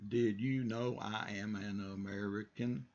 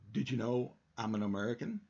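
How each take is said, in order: First: Each word is said separately and slowly. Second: The words run together quickly in one stream. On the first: The speaker calls it wrong. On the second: The speaker calls it right.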